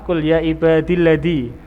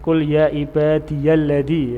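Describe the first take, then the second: First: 'Ibadi' links straight into 'lladzi' without 'ya'. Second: A 'ya' sound with an a-vowel follows 'ibadi'. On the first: "Ada qiraah seperti itu" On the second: "ibadiya, ya, ada ya"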